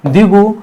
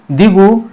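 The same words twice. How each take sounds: The two takes are said the same way.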